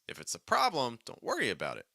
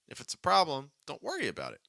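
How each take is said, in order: Both takes have the same delivery.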